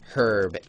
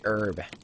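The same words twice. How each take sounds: First: The word is said the Canadian way. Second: The word is said the American way. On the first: The speaker calls it right. "I say herb because I'm Canadian, so herb is what I say" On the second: The speaker calls it wrong. "I do not say herb. That's the lazy American way"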